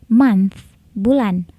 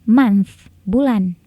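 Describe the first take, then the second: No difference in how they are said.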